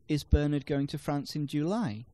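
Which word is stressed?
July. The stress falls on the word July. It questions when he is going. "No, he's going in August"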